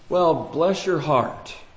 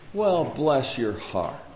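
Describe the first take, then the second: First: It sounds mocking and backhanded. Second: It sounds warm and sympathetic.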